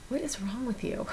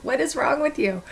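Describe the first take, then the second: First: 1 quiet self-scolding. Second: 1 exasperated self-scolding. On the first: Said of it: "I go". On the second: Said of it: "I'm like". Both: Retold or imitated.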